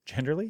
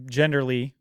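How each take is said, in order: First: Genderly said softer with a doubtful rising tune; questioning rise on genderly. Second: Said in the usual way. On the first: Shown as a demonstration. Host checks his own odd word genderly, softly querying. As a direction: ask genderly back as if unsure it's a word.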